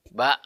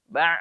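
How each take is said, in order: First: BA ending in a clean glottal stop; short, unforced BA; stop at throat base. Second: BA squeezed into an ain from mid-throat; constricted pharyngeal ending on BA; over-pressed throat. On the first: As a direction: cut "Ba" short without squeezing. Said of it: "yang dirasakan yang dipangkal". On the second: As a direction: press and strain the end of "ba". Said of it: "terlalu ditekan ke tengah tenggorokan". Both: Shown as a demonstration.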